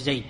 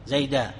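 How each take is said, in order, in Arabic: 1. تنتهي الكلمة بدون حركة بعدها. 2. تنتهي الكلمة بألف مدّ طويلة. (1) "أنك تقف بالسكون وحذف هذه الألف" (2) "تقف عليه بالألف"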